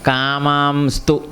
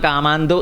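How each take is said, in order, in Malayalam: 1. ഒരു s ശബ്ദം വാക്കിനെ tu-വുമായി ബന്ധിപ്പിക്കുന്നു. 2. ഈ വാക്ക് s ശബ്ദമില്ലാതെ tu-വുമായി ചേരുന്നു. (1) "എങ്ങനെയാണ് ചേർന്നപ്പോൾ വന്നത്?" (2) "ശരിക്കും നമ്മൾ കാമാന്തു എന്നല്ലേ വരേണ്ടത്? ... അങ്ങനെ വരില്ല"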